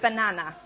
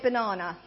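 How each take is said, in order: First: It is said in a plain, unrefined accent. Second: It is said in a posh, refined accent. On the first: The speaker calls it right. "You've got to say banana" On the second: The speaker calls it wrong. "we've got to lose the whole thing of being posh, okay? We don't say banana"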